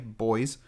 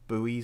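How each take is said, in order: First: It is said in a British way, rhyming with 'boys'. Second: It is said in a North American way, like 'boo-ees'. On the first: The speaker calls it right. "as in buoyancy" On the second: The speaker calls it wrong. "not not buoys or whatever you North Americans say"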